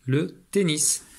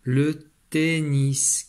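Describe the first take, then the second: First: Said in the usual way. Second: Le tennis said very slowly, final S clearly said; slow model reading. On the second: Shown as a demonstration. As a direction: drag le tennis out, sounding the S. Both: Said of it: "il faut dire le S".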